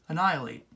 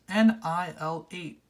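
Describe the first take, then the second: First: The letters run together quickly into one word. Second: Each letter and number is said separately and slowly.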